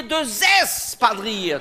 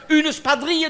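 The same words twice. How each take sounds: First: "deux espadrilles" with a buzzing zes liaison; slow, drawn-out "espadrilles" as zesss-padrilles; plural form demonstrated. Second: "spadrille" begun on sp after "Une"; high-pitched "Une spadrille", no es before sp; singular form demonstrated. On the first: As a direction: stretch the es in "espadrilles". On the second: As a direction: lay out "spadrille" as spa-drille. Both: Shown as a demonstration. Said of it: "tu comprends?".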